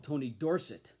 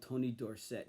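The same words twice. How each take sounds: First: "Tony Dorsett" with stress on DOR, second syllable a reduced "sut"; college pronunciation. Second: "Tony Dorsett" with stress on SETT, full "set" vowel; pro pronunciation. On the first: Collector shows the college way of saying the name: "Dorsett" stressed DOR-sut. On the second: Collector shows the pro-era way of saying the name: "Dorsett" stressed dor-SETT. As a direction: say "Dorsett" as dor-SETT, last syllable strong. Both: Shown as a demonstration. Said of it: "put the emphasis on the second syllable".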